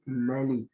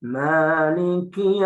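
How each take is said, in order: First: The first vowel is kept short. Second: The first vowel is drawn out long. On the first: "ada yang memendekkan bacaan maliki menjadi malik" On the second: "ada yang memanjangkan"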